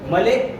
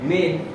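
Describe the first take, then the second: First: An extra vowel is heard at the end. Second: No extra vowel is heard at the end. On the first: The speaker calls it wrong. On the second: The speaker calls it right.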